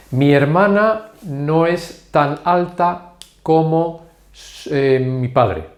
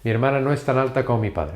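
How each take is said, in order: First: Slow, word by word, with gaps; slow model sentence. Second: Said in the usual way. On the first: Shown as a demonstration. Teacher gives Spanish learners an example sentence, slow and measured. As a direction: spell out the example slowly for learners.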